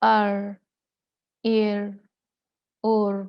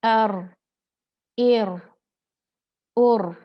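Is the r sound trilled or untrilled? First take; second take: untrilled; trilled. First: The r sound is a single untrilled sound. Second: The r sound is trilled with repeated taps. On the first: The speaker calls it wrong. "कोई तकरार नहीं है ... ये गलत है।" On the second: The speaker calls it right. "जब हम ज़ुबान में गैप देते हैं तो तकरार निकलती है।"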